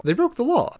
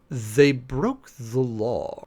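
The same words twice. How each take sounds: First: "They broke the law" much higher and louder, stress on broke; high, loud exasperated retort; exasperated outburst. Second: "They broke the law" crawled out word by word; very slow, pointed deadpan. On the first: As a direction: blurt it out in disbelief. Second take bursts out. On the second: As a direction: drag it out, exasperated and flat. Deadpan rebuttal, repeated twice. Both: Real, not acted.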